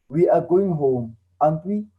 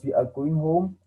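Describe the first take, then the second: First: "aren't we?" rising at the end; question tag with rising tune. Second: Said in the usual way. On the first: Shown as a demonstration. Teacher demonstrating a tag question to students, rising. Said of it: "we will add a question tag and we will say". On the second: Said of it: "An example I gave there was".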